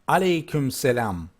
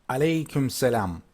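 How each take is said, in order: No difference in how they are said.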